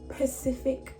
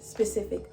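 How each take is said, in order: First: The word begins without an s sound. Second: The word begins with an s sound. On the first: The speaker calls it wrong. "saying Pacific instead of specific drives me nuts" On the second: The speaker calls it right. "So you should be saying specific"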